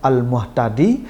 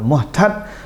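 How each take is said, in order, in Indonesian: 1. Kata ini berakhir dengan vokal akhir tambahan. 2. Kata ini berakhir pendek, tanpa vokal yang dipanjangkan. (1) "hurufnya dibanyakkan" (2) "dibacanya cepat, tidak ada mat"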